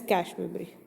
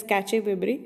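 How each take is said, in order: First: Cache said as one syllable, like "cash"; cache pronounced "kash", no final vowel. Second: Cache said "kat-chay", two syllables; cache pronounced "katch-ay"; cache as "catchy". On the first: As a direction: say cache ending on a plain sh. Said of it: "Some people call it as". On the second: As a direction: say cache with ch plus a sounded final e. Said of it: "From foreign languages people call it as". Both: Shown as a demonstration.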